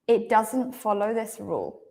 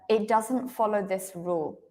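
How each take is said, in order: The two takes are said the same way.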